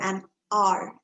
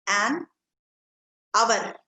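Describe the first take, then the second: First: Hour as one syllable, like 'are'; hour as a long, smooth 'ar'; correct pronunciation. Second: Hour said in two syllables as AH-vun; hour stretched into two syllables; wrong pronunciation. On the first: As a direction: say hour slowly with silent H. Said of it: "H O U R is pronounced as R". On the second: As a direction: say hour with a V-like glide in the middle. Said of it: "No, for an hour". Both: Shown as a demonstration.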